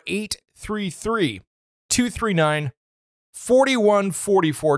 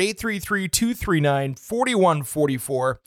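First: The number is said more slowly. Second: The number is said at normal speed.

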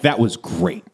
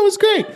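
First: The voice stays level. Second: The voice goes up high.

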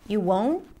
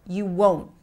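First: The voice sounds unsure and weak at the end. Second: The voice sounds firm and falls at the end. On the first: The speaker is less sure of the answer. The speaker calls it wrong. "If she were to say it like, you won't, it makes it a little less powerful" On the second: The speaker is completely sure of the answer. The speaker calls it right. "This is the beauty of the rising, falling pitch that fits in certain situations"

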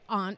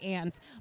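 First: Aunt is said in a New England accent. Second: Aunt is said the way other people say it. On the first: "I'm from New England, so I always say aunt" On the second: "I know a lot of other people say aunt"

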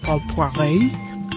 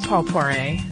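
First: The name is said with a full French pronunciation. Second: The name is said with an anglicized pronunciation.

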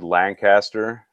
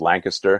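First: The name is said fully, following its spelling. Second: The name is said in a shortened local form. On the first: The speaker calls it wrong. "It's spelled Lancaster, but if you say it like that, you might get a weird look" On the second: The speaker calls it right. "It's pronounced Lancaster"

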